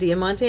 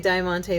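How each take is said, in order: First: The first vowel sounds like 'ee'. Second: The first vowel sounds like 'eye'. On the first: This is how the speaker always says it. "I always call it diamante ... the I makes the E sound" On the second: Someone else says it this way. "I heard somebody say diamante the other day"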